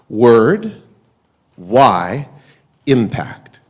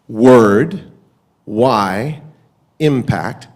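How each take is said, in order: Both takes have the same delivery.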